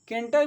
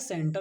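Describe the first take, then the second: First: The word begins with a k sound. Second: The word begins with an s sound. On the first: The speaker calls it wrong. "कैंटर भी नहीं पढ़ेंगे" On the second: The speaker calls it right. "सही जो word होता है"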